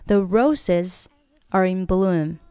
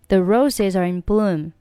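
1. roses、are 和 in 分开读。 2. roses、are 和 in 连在一起读，语速更快。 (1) "你可以选择不要连" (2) "你可以把这三个单词连在一起。这样子语速会更快一点。"

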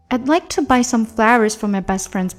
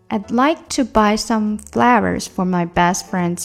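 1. 这句话说得正常。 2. 这句话说得慢。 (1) "下来正常速度说一遍" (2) "先慢一点"

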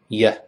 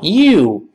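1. 这个元音弱化成了弱读的 schwa。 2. 这个元音是完整的长音 'oo'。

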